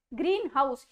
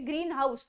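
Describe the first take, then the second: First: ग्रीन हाउस split into two evenly stressed words; separate words. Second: ग्रीन हाउस as two separate words, evenly stressed. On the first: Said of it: "अलग अलग करके separate करके बोल रही हूँ". (ग्रीन हाउस अलग अलग करके) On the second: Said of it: "अगर हम इनको अलग अलग वर्ड करेंगे". (ग्रीन हाउस दो अलग शब्दों की तरह) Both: Shown as a demonstration.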